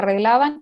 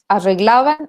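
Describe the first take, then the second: First: The r is a trilled double r. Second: The r is a voiceless retroflex approximant. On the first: "En vez de una R doble" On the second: "lo decían así"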